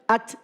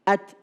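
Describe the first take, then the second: First: The t is released with a long hissing breath. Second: The t is released with a short light breath. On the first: The speaker calls it wrong. "terlalu berlebihan keluar hamesnya. Sehingga at, at, at, dan berdesis" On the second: The speaker calls it right. "Padahal cukup at"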